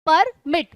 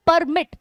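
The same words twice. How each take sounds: First: permit broken into par, then mit; split syllables. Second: Said in the usual way. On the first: Shown as a demonstration. Teacher showing two stresses, permit split par-mit. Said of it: "इसमें दो दो stress आ रहे हैं". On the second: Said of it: "दो से तीन बार तोड़कर".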